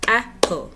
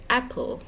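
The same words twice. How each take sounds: First: "Apple" in two separate beats, ap, pul; split into syllables. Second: Said in the usual way. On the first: Shown as a demonstration. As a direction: break "Apple" apart with a clear gap. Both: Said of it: "how many times do you open".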